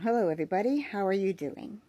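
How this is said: The voice is at its natural pitch. "This is my natural tone"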